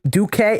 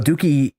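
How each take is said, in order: First: The name ends with an 'ay' sound. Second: The name ends with an 'ee' sound. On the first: The speaker calls it right. "His name is Duque, not Dookie or Duke" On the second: The speaker calls it wrong. "I just said his name is Dookie"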